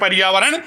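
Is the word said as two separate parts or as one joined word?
one word. It is said quickly as one joined word. The sounds merge, so the sandhi change happens. "शीघ्रता से करना है"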